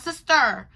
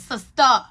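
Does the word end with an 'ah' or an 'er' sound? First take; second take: er; ah. First: The word ends with an 'er' sound. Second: The word ends with an open 'ah' sound. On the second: "she used the A at the end"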